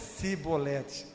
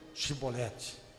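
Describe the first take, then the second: First: The word begins with an 's' sound. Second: The word begins with a 'sh' sound. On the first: The person saying it is killed. "não conseguiam falar chi, falava si" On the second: The person saying it is spared. "Chibolete, está livre"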